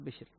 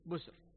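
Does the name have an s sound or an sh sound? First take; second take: sh; s. First: The name is said with an sh sound. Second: The name is said with an s sound. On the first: This is the form other transmitters reported. "بالشين بشر" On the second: This is the form one transmitter reported. "بالسين بسر"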